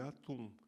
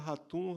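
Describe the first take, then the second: First: The name starts directly with a vowel sound. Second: The name starts with a breathy h sound. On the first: The speaker calls it right. "porque em português não existe o H aspirado como em inglês" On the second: The speaker calls it wrong. "os paulistas acham que falam árabe"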